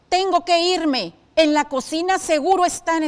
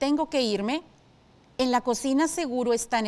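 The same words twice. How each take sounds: First: It is read with an angry, irritated tone. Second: It is read with a hesitant, doubtful tone. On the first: The character is annoyed. "con enojo" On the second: The character is unsure. "Si tu respuesta fue duda, es correcto"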